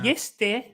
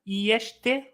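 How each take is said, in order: First: The middle consonant is a plain 's' sound. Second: The middle consonant is a 'sh' sound. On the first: "That you said" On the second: "the S was "sh.""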